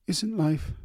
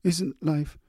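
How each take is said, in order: First: Halting, high and breaking; stammering. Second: Halting, high and breaking; stammering again. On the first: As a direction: stumble over the words, emotional. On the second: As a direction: stumble over it, emotional. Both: A narrator's reading. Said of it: "she stammered".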